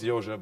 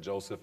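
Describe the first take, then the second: First: The name begins with a Y sound. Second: The name begins with a J sound. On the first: The speaker calls it right. "no, it's Yoshe" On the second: The speaker calls it wrong. "they keep saying Joseph"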